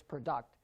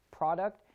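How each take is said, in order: First: Pro-DUCT, stressed at the end; "product" as pruh-DUCT; stress on second syllable. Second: PRO-duct, stressed at the start; "product" as PROD-uct; stress on first syllable. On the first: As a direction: lean on the last syllable of "product". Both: Shown as a demonstration. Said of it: "It is called syllable stress".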